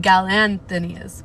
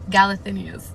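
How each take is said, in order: First: It has an n sound before the th. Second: It has no n sound before the th. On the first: The speaker calls it wrong. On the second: The speaker calls it right.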